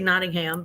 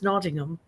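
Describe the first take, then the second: First: It is said with an American accent. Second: It is said with a British accent. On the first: "that's because we have American accents" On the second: "But I think it's Nottingham"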